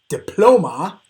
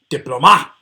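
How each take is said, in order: First: The stress is on the second syllable. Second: The stress is on the third syllable. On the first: The speaker calls it right. "it's that middle one" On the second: The speaker calls it wrong. "it just doesn't sound right"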